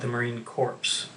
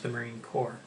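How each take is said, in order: First: The last word ends with an audible 'ps' sound. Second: The last word ends in 'r' with no 'ps'. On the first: The speaker calls it wrong. "You don't call it" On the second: The speaker calls it right.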